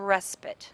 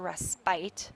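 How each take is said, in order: First: The last syllable has a short vowel. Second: The last syllable has a long vowel. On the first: The speaker calls it right. "that's the way it's pronounced" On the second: The speaker calls it wrong. "which generally signals the fact that we have a long vowel before it, and it, you might want to say this is a respite"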